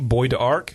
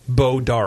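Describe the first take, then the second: First: The name is said as 'Boyd Arc'. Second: The name is said as 'Bo Dark'. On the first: It is read the way it is spelled. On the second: It is said the way locals say it.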